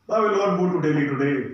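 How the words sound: It is said in a sad way.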